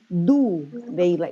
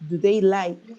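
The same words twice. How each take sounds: First: The auxiliary at the start is stressed. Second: The verb is stressed, the auxiliary soft. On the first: The speaker calls it wrong. "you don't say do they like, no" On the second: The speaker calls it right. "they don't put a stress in the auxiliary. They put a stress in the verbs"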